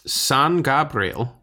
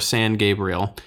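First: The name has a fancy, foreign-sounding pronunciation. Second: The name has a plain, everyday pronunciation.

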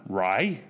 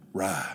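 First: It is said in a fancy standard accent. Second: It is said in a Southern US accent.

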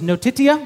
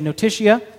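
First: It is said with a Latin pronunciation. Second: It is said with an English pronunciation. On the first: "I'm going to pronounce them in Latin" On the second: "then I will pronounce them in English the way I'm going to say them"

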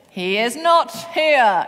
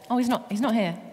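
First: It is said in a grand, solemn, deeper voice. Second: It is said in a light, offhand way.

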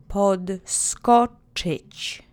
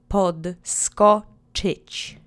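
The two takes are said the same way.

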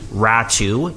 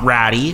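First: The name ends in an 'oo' sound. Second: The name ends in an 'ee' sound. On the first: The speaker calls it right. "Ratu is the correct pronunciation there" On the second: The speaker calls it wrong. "not Ratty"

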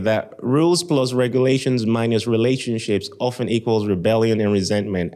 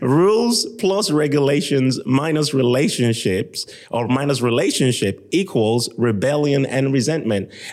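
First: It is said at normal speed. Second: It is said more slowly.

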